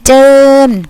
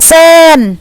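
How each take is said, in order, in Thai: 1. คำนี้ขึ้นต้นด้วยเสียง j 2. คำนี้ขึ้นต้นด้วยเสียง s (1) "ภาษาเหนือจะออกเสียงเป็นเจิญ" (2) "อีสานก็เป็นเซิน"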